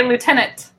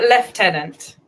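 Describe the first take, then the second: First: Lieutenant as "loo-tenant", no F; American pronunciation. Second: Lieutenant said with an F, "lef-tenant"; British pronunciation. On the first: American answering the British way with their own, American pronunciation. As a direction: say lieutenant "loo-TEN-ant". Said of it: "We say, we just say". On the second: British guest telling an American how they say it, British F pronunciation. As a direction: say lieutenant as "lef-TEN-ant". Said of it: "We pronounce with an F". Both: Shown as a demonstration.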